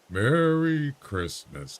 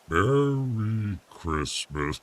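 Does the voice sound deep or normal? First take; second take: normal; deep. First: The voice is at its normal, unprocessed pitch. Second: The voice is processed to sound much deeper. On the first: "No, I don't have the deep voice" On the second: "Low voice. ... There you go. Now it's working"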